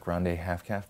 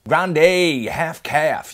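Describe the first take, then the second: First: It is said at normal, soft volume. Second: It is said loudly.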